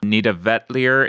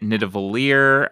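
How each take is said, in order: First: The second word has a t before the l. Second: The second word has no t before the l. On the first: The speaker calls it right. "apparently Nita Vetlier is the actual pronunciation" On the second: The speaker calls it wrong. "which I was always pronouncing it Nita Valier"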